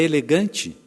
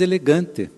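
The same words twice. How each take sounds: First: The final t sound is pronounced like ch. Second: The final t sound is plain, without a ch quality. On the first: This is how the child thinks it should be said. The speaker calls it right. "mas é ... de T para Tchê" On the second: This is how the grandfather says it. The speaker calls it wrong. "Você diz"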